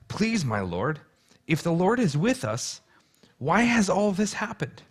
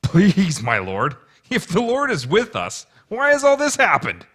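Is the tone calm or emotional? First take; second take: calm; emotional. First: It is read in a calm, plain tone. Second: It is said with strong emotion, as Gideon.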